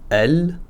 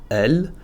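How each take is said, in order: No difference in how they are said.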